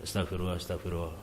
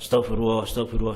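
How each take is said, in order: First: It is said too softly. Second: It is said too loudly.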